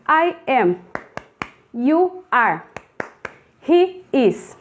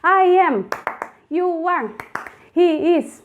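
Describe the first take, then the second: First: The phrases are said at a slow pace. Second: The phrases are said at a very fast pace.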